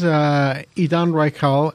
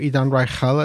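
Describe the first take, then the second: First: The name is said with an English pronunciation. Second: The name is said with an Israeli pronunciation.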